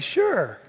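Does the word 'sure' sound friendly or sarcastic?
friendly. The word sounds friendly and agreeable. The speaker genuinely agrees. The speaker calls it right.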